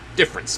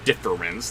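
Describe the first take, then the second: First: The middle vowel is dropped, giving two syllables. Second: The word is said with three full syllables. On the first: "like it's supposed to be spelled out" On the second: "Not difference"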